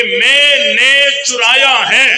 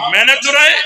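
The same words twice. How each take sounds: First: "मैंने चुराया है" spelt out slowly, word by word; slow, drawn-out statement on मैंने चुराया है; literal admission. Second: "चुराया" swung up at the end as a question; disbelieving question, rising sharply on चुराया; indignant rhetorical question. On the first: Shown as a demonstration. Preacher showing students the literal wording, slow spelt-out admission. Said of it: "लफ्जों में तो इकरार है ना". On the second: Acted. Teacher retorting to student about the stolen mobile, indignant question.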